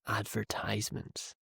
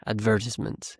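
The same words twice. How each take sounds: First: Said in the usual way. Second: "advertisements" stressed on VER, British style; British "advertisements", short i in the third syllable; very British pronunciation. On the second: Shown as a demonstration. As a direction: say "advertisements" as ad-VER-tis-ments. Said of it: "the very British pronunciation".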